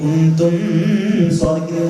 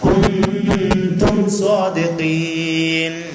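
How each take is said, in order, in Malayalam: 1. m ശബ്ദം മറഞ്ഞതും മങ്ങിയതുമാണ്. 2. m ശബ്ദം വ്യക്തമായി ഉച്ചരിക്കുന്നു. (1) "ഓതാൻ പാടില്ല" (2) "സാക്കിനായ മീമിന്റെ ശേഷം സ്വാദ് വന്നപ്പോ ഇദ്ഹാറ്"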